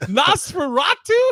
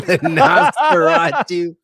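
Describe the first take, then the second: First: Mock disbelief. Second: Laughing out the name. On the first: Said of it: "You go". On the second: Real, not acted. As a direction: say Nosferatu through laughter.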